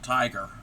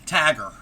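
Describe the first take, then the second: First: The first vowel is a gliding 'eye' sound. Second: The first vowel is a flat 'ah' sound. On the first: "she didn't pronounce it Tiger" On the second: "She pronounced Tiger as Tagger"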